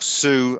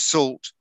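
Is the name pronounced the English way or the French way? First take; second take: French; English. First: The name is pronounced the French way. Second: The name is pronounced the English way. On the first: The speaker calls it right. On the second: The speaker calls it wrong.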